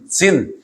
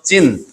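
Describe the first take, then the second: First: The name begins with a plain s sound. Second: The name begins with a z-like sound. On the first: This is the form used in the translation. "여기를 신이라고 번역을 했지만" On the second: This is the spelling with the letter Z. "Z를 써서 진, 진광야 이렇게 말하는 것이 음력에는 맞겠습니다"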